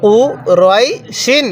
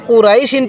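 First: কুরাই শিন slowly, the middle rounded to "roai". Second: কুরাই শিন at talking pace with a thin, open "rai"; mistaken RAI. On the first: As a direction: stretch কুরাই শিন with a heavy "roai", not "rai". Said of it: "তাহলে কিভাবে পড়তে হবে?". (কুরাই শিন টেনে, গোল "রয়াই" উচ্চারণে) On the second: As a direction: say কুরাই শিন with "rai" instead of rounded "roai". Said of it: "কেউ কুরাই শিন পড়বেন না". (কুরাই শিন, ভুল করে পাতলা "রাই" দিয়ে) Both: Shown as a demonstration.

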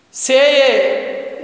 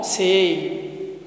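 First: "Say" on one long, steady e; wrong vowel demo. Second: "Say" gliding from e to i, lower; correct diphthong. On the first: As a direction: hold "Say" as a pure vowel with no i at the end. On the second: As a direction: model "Say" as seh-ee, pitch dropped. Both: Shown as a demonstration.

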